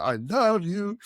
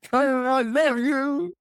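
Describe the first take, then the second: First: Lightly voiced Italian client, higher and sing-song, not a full accent; a gushing "I love you" with a rising end, only a hint of the client. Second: Hammed-up lovestruck client, much higher, louder and very slow; ecstatic Italian client. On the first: Italian procurement guy gushing at the salesman, lightly mimicked. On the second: Italian procurement guy swooning over the signed deal, hammed-up. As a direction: stretch "I love you" out high and loud like a man in raptures. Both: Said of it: "I won't do the accent".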